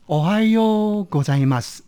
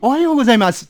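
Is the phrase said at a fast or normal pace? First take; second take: normal; fast. First: The phrase is said at a normal pace. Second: The phrase is said as fast as possible.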